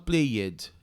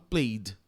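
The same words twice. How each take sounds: First: The ending is said as an extra syllable. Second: The ending is just a d sound. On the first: The speaker calls it wrong. "Eu não falo played" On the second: The speaker calls it right. "Então é só um D. ... eu falo played"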